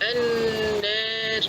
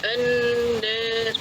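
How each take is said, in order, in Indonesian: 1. Vokal panjangnya berada di antara 'a' dan 'e'. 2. Vokal panjangnya berada di antara 'a' dan 'e'.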